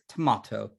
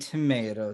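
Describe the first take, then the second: First: The word is said in a British accent. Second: The word is said in an American accent.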